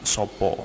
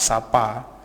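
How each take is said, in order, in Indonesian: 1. Vokalnya diucapkan sebagai 'o'. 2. Vokalnya diucapkan sebagai 'a'. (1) "Kalau di daerah Jawa Tengah atau di daerah D I I itu dia menyebutnya dengan Sopo" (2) "itu pengucapan sapa tetap sapa"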